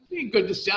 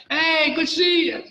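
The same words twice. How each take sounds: First: Said in the usual way. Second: Higher, louder, bright hello imitating the inmates; mock cheerful greeting. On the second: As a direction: call it out like an old friend spotting you. Inmates greeting him at jail.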